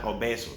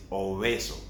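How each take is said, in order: First: "obeso" with a hard b; wrong strong b in "obeso". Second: "obeso" with a soft b; gentle b in "obeso". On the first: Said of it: "It's not obeso". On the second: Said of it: "It's obeso". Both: Shown as a demonstration.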